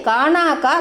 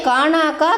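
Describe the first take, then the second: Both takes have the same delivery.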